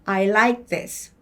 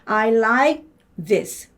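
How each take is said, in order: First: The phrase is said fast. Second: The phrase is said at normal speed. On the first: "더 빨리 읽으면" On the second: "근데 정상으로 읽으면"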